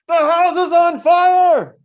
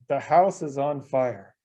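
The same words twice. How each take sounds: First: It is said in an urgent, alarmed tone. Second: It is said in a calm, matter-of-fact tone.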